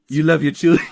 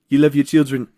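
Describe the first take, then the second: First: It is said in a put-on cartoon character voice. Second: It is said in a more natural speaking voice. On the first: "I'm doing the Stewie voice" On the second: "maybe I'm just doing my voice"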